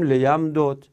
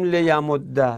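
First: لیم دود as le-yam-dod, dals apart; unmerged form. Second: لیم ده as le-ya-mod-da, doubled d; merged form. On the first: Teacher offers students the allowed alternative, unmerged form. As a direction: keep لیم دود unmerged, closing on a vowelless d. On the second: Teacher says merging is not compulsory, merged form. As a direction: merge the dals in لیم ده, ending on "dda". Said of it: "ادغام واجب نیست ما حتماً بگیم". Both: Shown as a demonstration.

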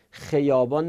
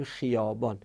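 First: خیابان opened with a short "khe"; wrong short vowel. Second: خیابان opened with a long "khii"; correct long i. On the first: Teacher gives another wrong example, خیابان as "kheyâbân". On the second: Teacher gives the right example, خیابان as "khiiyâbân". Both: Shown as a demonstration.

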